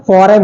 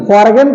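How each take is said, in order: First: Said in the usual way. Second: फॉरगन with the g sounded; wrong pronunciation. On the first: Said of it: "जी silent है यहाँ पे". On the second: Shown as a demonstration. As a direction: say a hard g in फॉरगन. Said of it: "तो होता नहीं".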